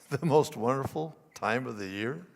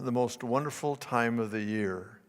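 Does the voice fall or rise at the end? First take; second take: rises; falls. First: The voice rises at the end, doubtfully. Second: The voice falls at the end.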